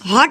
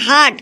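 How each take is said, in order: First: The word has an 'o' vowel. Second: The word has an 'a' vowel. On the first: The speaker calls it wrong. "ওটা হচ্ছে কি হট না" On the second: The speaker calls it right. "ওটা হচ্ছে হাট"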